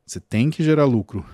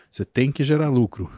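Both takes have the same delivery.

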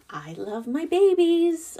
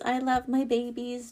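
First: I love my babies said high and loud, stretched out on babies; gushing, high and loud. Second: Sincere reassurance after the gush; softer sincere repeat. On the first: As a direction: swoop up high and gush over the babies. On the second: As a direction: come back down and mean it. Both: Real, not acted. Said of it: "Don't get me wrong".

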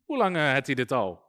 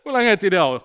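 First: Low-pitched, casual Brabant dialect; lightly put-on Brabant Dutch; Brabant accent. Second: Fuller, livelier Brabant dialect; jokey Brabant Dutch, pitched up and out; Brabant accent. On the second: Acted. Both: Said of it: "Dat is Brabant".

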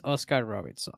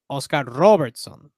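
First: Said in the usual way. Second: "Oscar Robertson" said slowly and louder, landing on "Robertson"; drawn-out emphatic "Oscar Robertson"; emphatic repeat. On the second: Real, not acted. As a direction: lean on "Robertson", slow and firm.

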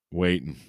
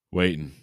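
No difference in how they are said.

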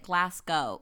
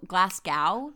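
First: Said in the usual way. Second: Glasgow said as "glass cow", ending rhyming with now; American mispronunciation of Glasgow. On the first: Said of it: "it's just that I pronounced it". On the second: Shown as a demonstration. Guest showing how most Americans say it, Glasgow pronounced like "glass cow". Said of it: "it's a picture of a glass cow".

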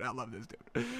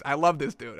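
First: Breathy, barely audible adoring murmur; awed near whisper. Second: Said in the usual way. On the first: Real, not acted. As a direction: let it fall to a hushed sigh.

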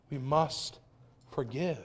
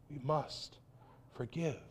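First: Said in the usual way. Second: Softer "We must forgive.", almost under the breath; quiet echo. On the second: Acted. Pastor repeating the call to his congregation, softer. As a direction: let "We must forgive." fall away softly, like a quiet echo.

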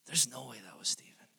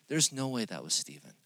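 First: Whispered, disbelieving repeat. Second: Said in the usual way. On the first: Retold or imitated. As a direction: drop to a whisper on "There's no way that was Steven". Teacher's quote repeated twice.

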